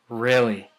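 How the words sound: The pitch stays level at the end. The speaker is being serious. "if you're going to maintain and you're trying to say you're being serious"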